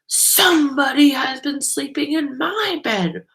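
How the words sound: It is said in a deep, growly voice.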